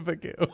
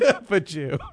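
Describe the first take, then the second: First: The G is hard, like in go. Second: The G is soft, like a J. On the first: It sounds offensive. The speaker calls it wrong. "Bagoo's offensive" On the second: It sounds playful. The speaker calls it right. "I pronounce it with a soft G"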